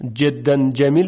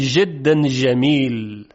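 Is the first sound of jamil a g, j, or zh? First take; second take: j; zh. First: The jim sounds like an English j. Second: The jim sounds like zh.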